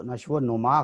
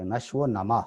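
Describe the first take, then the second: First: نشو و نما said numa with a pesh, slowly; wrong pronunciation. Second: نشو و نما said nama with a zabar; correct pronunciation. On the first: Teacher showing student the wrong reading, slowly. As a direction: give نشو و نما the common numa ending. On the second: Teacher giving student the correct reading. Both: Shown as a demonstration. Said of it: "اس کے اوپر زبر ہونی چاہیے".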